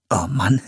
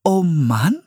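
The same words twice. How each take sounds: First: Muttered dismay breaking into a high laugh; nervous laugh. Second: High, rising puzzled echo; confused. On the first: Brother embarrassed by his sister, laughing nervously. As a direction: say it, then laugh uneasily. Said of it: "sagte Philipp und lachte nervös". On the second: Young woman echoing an odd phrase, confused. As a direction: repeat it as a bewildered question. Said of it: "wiederholte Priscilla verwirrt". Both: A narrator's reading.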